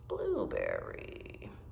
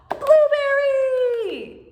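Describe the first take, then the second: First: It is said in a doubtful, questioning tone. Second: It is said in an excited, eager tone. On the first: The speaker is not sure it is a blueberry. "with a skeptical voice" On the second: The speaker looks forward to baking blueberry pie. "with an excited voice"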